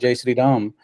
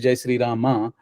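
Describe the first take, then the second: First: The last word ends in a consonant. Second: The last word ends in a vowel. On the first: This is how Hindi speakers say it. "They s- they call Jai Sri Ram" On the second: This is the written Sanskrit form. "but in Devanagari it is Jai Sri Rama"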